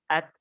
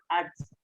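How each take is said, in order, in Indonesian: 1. T dilepaskan tanpa desis mirip s. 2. T di akhir berakhir dengan desis mirip s. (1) "Jadi seperti ini" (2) "bukan ats ... Kalau ats, dia malah jadi gabungan huruf sin"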